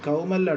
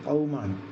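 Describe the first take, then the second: First: It starts with a plain front k sound. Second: It starts with a deep throaty q sound. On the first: The speaker calls it wrong. "കൗമല്ല ട്ടാ" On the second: The speaker calls it right. "ഖാഫ് ഖൗമാണ്"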